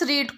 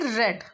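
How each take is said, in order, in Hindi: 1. स्वर लंबा है, 'seed' जैसा। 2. स्वर छोटा है, 'bed' जैसा। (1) "इस रीड को" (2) "पास्ट टेंस में हम इसको एज ए रेड पढ़ते हैं"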